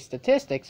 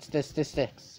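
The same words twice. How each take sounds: First: The word is said with its usual sounds. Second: The word is said with an extra s sound. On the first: "when I say statistics" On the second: "it comes out statistics. You know, I cannot let go of the S"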